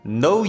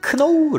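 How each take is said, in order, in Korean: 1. 이 단어는 n 소리로 시작하고, k는 묵음이에요. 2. 이 단어는 k 소리를 발음하며 시작해요. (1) "여기서 K는 묵음이다" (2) "크노우 라고 발음하면 원어민들이 못 알아듣는다"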